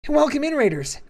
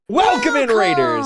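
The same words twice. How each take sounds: First: It is said in a high head voice. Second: It is said in an ordinary speaking voice. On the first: The speaker calls it right. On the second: The speaker calls it wrong.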